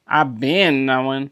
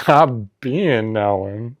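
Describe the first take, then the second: First: Slow, sassy I've been knowing. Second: Very slow, laughing imitation of the sass; mock sassy. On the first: Pretend. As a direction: say it like you knew all along. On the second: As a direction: drag it out, imitating the friend. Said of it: "it's so funny".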